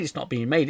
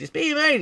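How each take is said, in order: First: Quick deadpan contradiction; mock retraction. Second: Exaggerated piping cry of good news; mock announcement. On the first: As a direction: fall back to the normal register. Mimics the contradicting announcement. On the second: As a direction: shoot up high and loud. Mimics back-and-forth film announcements.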